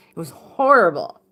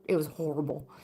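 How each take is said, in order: First: HORRIBLE hit hard and loud; emphatic repeat. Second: Low-key and soft, remembering something bad; quiet recollection. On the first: Storyteller stressing how bad the apparition was, horrible said loudly. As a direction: punch out the word horrible. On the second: Storyteller closing a frightening memory, subdued. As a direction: say it softly, almost to yourself. Recalls the apparition, then repeats. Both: Real, not acted.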